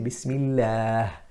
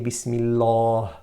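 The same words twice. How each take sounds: First: The long vowel is thin and light. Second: The long vowel is thick and heavy. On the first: The speaker calls it right. "we say Bismillah" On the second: The speaker calls it wrong. "we don't say Bismillah"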